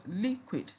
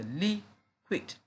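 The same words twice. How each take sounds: First: Said in the usual way. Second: "liquid" as two separate beats; split into syllables. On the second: Shown as a demonstration. Teacher showing two syllables, split into syllables. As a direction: pause inside "liquid" between its two syllables. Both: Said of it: "We have two syllables there".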